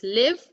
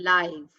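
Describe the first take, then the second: First: "live" with a short i, like "liv"; first reading of live. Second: "live." with a long i, like "laiv"; second reading of live. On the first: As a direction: say "live" to rhyme with "give". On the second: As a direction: say "live." to rhyme with "five", falling. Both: Shown as a demonstration. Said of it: "look at the difference".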